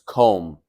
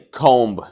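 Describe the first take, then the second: First: The word ends without a b sound. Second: The word ends with an audible b sound. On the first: The speaker calls it right. "We don't pronounce the b" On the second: The speaker calls it wrong. "We don't say comb"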